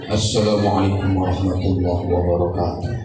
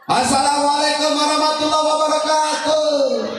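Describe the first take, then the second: First: It is said low and soft. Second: It is said high, like an announcement.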